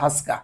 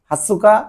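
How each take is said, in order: First: It is said with two syllables, vowel dropped. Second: It is said with three full syllables. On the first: "হাসকা বলে অনেকে" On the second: "হাতসুকা বা হাসকা দুভাই বলতে পারেন"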